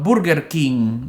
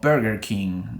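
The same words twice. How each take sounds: First: It is said with a Spanish-style accent. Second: It is said with an American English accent.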